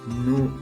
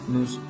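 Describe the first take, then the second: The two takes are said the same way.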